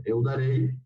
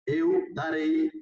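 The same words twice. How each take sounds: First: Said in the usual way. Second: Eu darei drawn out slowly, eu lifted high; teacher's slow demo of "eu darei"; slow model pronunciation. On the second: Shown as a demonstration. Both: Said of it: "Entonces, por ejemplo".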